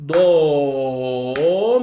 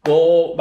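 First: "Do" held long, a beat and a half, low then rising; dotted-note do. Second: Said in the usual way. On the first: Shown as a demonstration. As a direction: stretch "Do" well past one beat. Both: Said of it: "bak noktalı yapıyorum".

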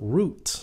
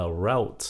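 First: ROUTE rhyming with "boot"; other variant. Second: ROUTE rhyming with "out"; one variant. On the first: Teacher shows how others say it, ROUTE as "root". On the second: Teacher shows how some say it, ROUTE as "rowt". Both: Shown as a demonstration. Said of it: "có một số phát âm là".

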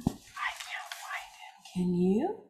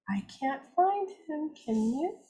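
First: Put-on hushed secret whisper to the kids. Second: Said in the usual way. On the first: Teacher whispering to children at circle time, hushed whisper. Hiding seahorse, shared whisper.

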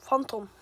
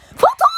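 First: Said in the usual way. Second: Name squealed very high and loud; high-pitched call. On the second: Acted.

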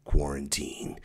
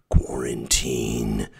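First: Said in the usual way. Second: "Quarantine" drawn out very slowly and pitched lower; slow ominous quarantine. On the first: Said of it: "repeated as contrast". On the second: Shown as a demonstration. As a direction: stretch "Quarantine" slow and low like a doom toll. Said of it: "second drawn-out take".

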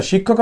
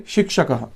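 First: শিক্ষকঃ as 'shikkhokaha', the Bengali way; Bengali-style pronunciation. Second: শিক্ষকঃ as 'shik-sha-ka-ha', echoed final ha; Sanskrit pronunciation. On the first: Teacher shows students what to avoid, Bengali-style pronunciation. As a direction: say শিক্ষকঃ with a doubled kh, no sh sound. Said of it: "উচ্চারণটা তো হবে না". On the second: Teacher models it for Sanskrit students, Sanskrit pronunciation. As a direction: say শিক্ষকঃ with separate k and sh sounds. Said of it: "সংস্কৃত উচ্চারণে হবে". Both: Shown as a demonstration.

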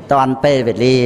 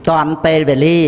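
First: ទាន់ពេលវេលា said again in a lower voice as a reminder; lower echo. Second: ទាន់ពេលវេលា with the stress on ពេ and the voice rising at the end; emphatic first take. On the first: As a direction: repeat ទាន់ពេលវេលា a little lower, with a light stress on ពេ and a small rise. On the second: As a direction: press ទាន់ពេលវេលា home as the key phrase, rising. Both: Real, not acted.

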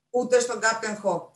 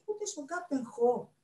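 First: Slow, loud falling answer on "Ούτε στον Κάπτεν Χο"; firm refusal. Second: Slow, high question on "Ούτε στον Κάπτεν Χο". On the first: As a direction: state "Ούτε στον Κάπτεν Χο" as final, ending on a fall. Librarian firmly repeats the refusal. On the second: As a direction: ask "Ούτε στον Κάπτεν Χο" high and slowly, without loudness. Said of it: "ρώτησε ο Περπερούα". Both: A narrator's reading.

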